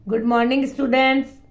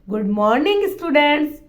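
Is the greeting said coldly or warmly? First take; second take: coldly; warmly. First: It is said flatly, without warmth. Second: It is said warmly and affectionately.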